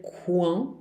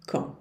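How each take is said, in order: First: "quand" with the U sounded, like "kuan"; mock-wrong "quand" with a "kw" at the start; wrong pronunciation. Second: "Quand" as a nasal "kõ", no U and no D; correct French quand. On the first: Teacher warning students against sounding the U in quand, as "kuan". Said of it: "não se pronuncia o U". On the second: Teacher giving students the right quand, a nasal "kõ". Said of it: "também não se pronuncia o D". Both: Shown as a demonstration.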